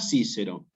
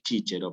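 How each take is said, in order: First: Both c's sound like s. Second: Both c's sound like ch. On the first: It is a Spanish-style reading of the Latin. The speaker calls it wrong. "nunca Cícero" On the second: It is the church Latin pronunciation. The speaker calls it right. "en latín eclesiástico, va a tener otra pronunciación que es chíchero"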